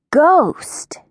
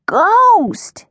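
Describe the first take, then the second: First: Said in the usual way. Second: High, drawn-out storybook cry; alarmed cry. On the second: A narrator's reading. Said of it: "he cried".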